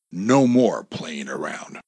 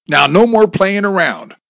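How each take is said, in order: First: Slow, whispery echo; hushed inner thought. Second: Loud, high-pitched command; yelled warning. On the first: Hidden man resolving to act, hushed slow thought. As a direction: murmur it slowly to yourself. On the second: Gunman to his hostages after shooting, yelled warning. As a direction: yell it like a final warning. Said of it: "Bob yelled". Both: A narrator's reading.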